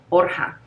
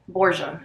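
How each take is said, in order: First: The surname is pronounced in a non-English way. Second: The surname is pronounced in an English way. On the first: This is how the name is really pronounced. "not a lot of people ever pronounce that correctly" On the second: This is how English speakers usually say the name. "as people would say in English"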